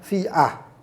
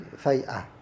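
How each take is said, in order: First: The first syllable has an i vowel. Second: The first syllable has an a vowel. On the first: "Dengan dikasrkan fa, huruf fa dan difathahkan huruf hamzah" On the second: "bi fathal fa dengan difathahkan di, di uh, fathahkan huruf fa"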